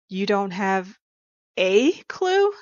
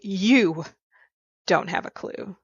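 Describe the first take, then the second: First: The stress falls on the word 'a'. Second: The stress falls on the word 'you'.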